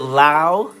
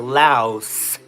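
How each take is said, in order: First: The word ends without an S sound. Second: The word ends with an S sound. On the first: "silent S" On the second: "with the S at the end"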